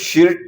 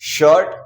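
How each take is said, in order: First: The vowel sounds like short 'ih'. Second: The vowel sounds like 'uh' or 'er'. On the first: The speaker calls it wrong. "शिर्ट नहीं बोला है" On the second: The speaker calls it right. "उसका उच्चारण जो है वो हमने अ से किया है"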